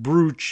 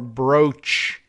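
First: The vowel rhymes with 'boot'. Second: The vowel rhymes with 'coach'. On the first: "than brooch" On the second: "more brooch"

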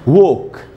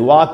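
First: The vowel is a long 'oh' sound. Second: The vowel is an open 'ah' sound. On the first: The speaker calls it right. "इसको पढ़ना चाहिए वोक" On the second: The speaker calls it wrong. "वाक नहीं पढ़ना चाहिए"

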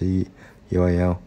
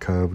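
First: The name is spelled out letter by letter. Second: The name is said as a single word. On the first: "đôi khi mình đọc là CUAL" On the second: "đôi khi mình đọc là Curve"

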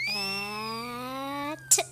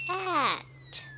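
First: It is said slowly. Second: It is said at medium speed.

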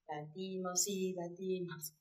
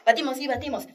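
First: It is said slowly. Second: It is said quickly.

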